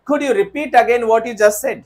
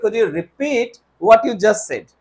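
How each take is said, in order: First: Slow, deliberate faulty question; slow wrong example. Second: Slow model question; slow corrected example. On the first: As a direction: read the wrong question slowly. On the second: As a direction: say the fixed question slowly. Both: Shown as a demonstration. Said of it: "नहीं sir, हम कहेंगे".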